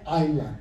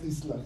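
First: The s in the word is silent. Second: The s in the word is pronounced. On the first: The speaker calls it right. "understand that it is Island" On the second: The speaker calls it wrong. "not Island"

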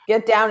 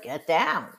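First: It is said in a firm, stern tone. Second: It is said in a playful, mocking tone. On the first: A serious order is being given. "I tell you in a stern voice to get down" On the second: The order is being made fun of. "he's like mocking me and he's laughing"

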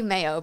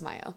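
First: The first syllable sounds like the month May. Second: The first syllable does not sound like May. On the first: The speaker calls it wrong. "I always say Mayo" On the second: The speaker calls it right. "but I know it's Mayo"

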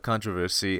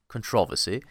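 First: It is said in his normal accent. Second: It is said in a British accent.

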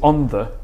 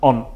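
First: The word 'the' is pronounced in full. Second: The word 'the' is dropped after 'on'. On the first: "Because it's on the" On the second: "put the T on the end of the word before to get rid of the"

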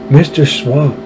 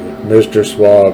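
First: The put-on voice is high pitched. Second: The put-on voice is lower pitched. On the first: The speaker calls it wrong. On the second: The speaker calls it right.

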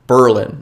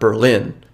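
First: The stress falls on the first syllable. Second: The stress falls on the second syllable. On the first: This is how the Wisconsin town's name is said. The speaker calls it right. "it's Berlin" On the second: This is how the German city's name is said. The speaker calls it wrong. "not Berlin"

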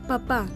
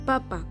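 First: The stress is on the second syllable. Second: The stress is on the first syllable. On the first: It means father. "Con tilde suena papá, como padre" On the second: It means potato. "sin tilde sonaría papa, como un vegetal"

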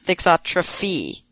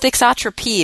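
First: The consonant before the final syllable is f. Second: The consonant before the final syllable is p. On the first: The speaker calls it wrong. "not thixotrophy" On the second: The speaker calls it right. "It's thixotropy"

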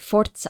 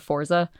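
First: The middle sound is a ts. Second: The middle sound is a plain z. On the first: This is the proper way to say it. "I say Forza" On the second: This is how most people say it. "as opposed to Forza"

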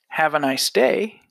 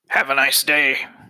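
First: It sounds warm and sincere. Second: It sounds cold and insincere.

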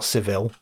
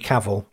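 First: The name is said in an Italian-sounding way. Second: The name is said in a plain English way. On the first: The speaker calls it wrong. "not Cavill. He's not Italian" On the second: The speaker calls it right. "Henry Cavill, not Cavill"

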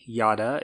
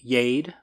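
First: The name is given a European-style pronunciation. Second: The name is given an English-style pronunciation.

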